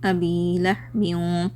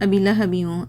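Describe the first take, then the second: First: The long vowels are held for two counts. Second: The long vowels are cut short. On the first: The speaker calls it right. "Double हर double ई का सुनना" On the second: The speaker calls it wrong. "बहुत सारे लोग अभी लहबी हूँ ऐसे पढ़ते हैं"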